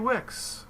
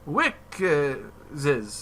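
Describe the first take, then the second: First: The name ends without an added s sound. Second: The name ends with an added s sound. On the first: The speaker calls it right. "they said just say Wix" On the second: The speaker calls it wrong. "he couldn't drop that extra addition"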